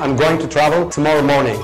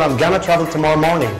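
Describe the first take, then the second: First: Each word of 'going to' is said in full. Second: 'Going to' is blended quickly into 'gonna'. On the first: "تقول" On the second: "ممكن بقى تقولها أسرع وبنسيابية أكتر"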